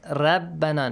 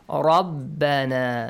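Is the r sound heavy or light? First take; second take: light; heavy. First: The r is light, with a thin, plain sound. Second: The r is heavy, with a thick, full sound. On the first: The speaker calls it wrong. "not rabbana, no. It's not the same as Persian" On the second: The speaker calls it right. "Heavily. The rule tafkhimu ra is applied here"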